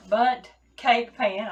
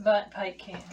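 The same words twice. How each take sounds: First: "bundt cake pan" said slowly and carefully, fixing "pan"; "bundt cake pan", corrected, "pan" stressed; careful correction. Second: "bundt cake can" said by mistake, with "can" for "pan"; "bundt cake can", the wrong word "can"; slip of the tongue. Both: Real, not acted. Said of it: "I'll get it right in a minute".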